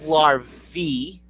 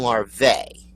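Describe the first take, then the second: First: "larvae" as "lar-vee"; one heard larvae. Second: "larvae" as "lar-vay"; other heard larvae. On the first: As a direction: end LARVAE in a slow EE. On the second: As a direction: end LARVAE in a slow AY. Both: Shown as a demonstration. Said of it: "I've heard larvae".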